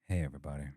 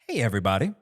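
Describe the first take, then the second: First: It sounds disappointed. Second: It sounds supportive.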